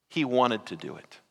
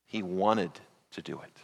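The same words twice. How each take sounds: First: Said in the usual way. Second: Said again much softer and lower, wanted leaned on; hushed repeat. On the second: Real, not acted. Preacher to congregation, repeating softly for weight, hushed. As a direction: drop to a near hush on the repeat.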